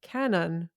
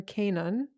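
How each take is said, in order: First: First guess at saying "Canon", short first vowel; tentative pronunciation. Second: Second guess at saying "Canon", long first vowel; alternative pronunciation. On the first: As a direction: try "Canon" with a short a, as in "can". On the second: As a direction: try "Canon" with a long a, as in "cane". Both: Real, not acted. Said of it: "the pronunciation, I don't know".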